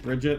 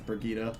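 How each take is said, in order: First: The name is said as plain 'Bridget'. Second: The name is said as 'Brigitte'. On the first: The speaker calls it wrong. "isn't it just Bridget?" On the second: The speaker calls it right. "it's Brigitte"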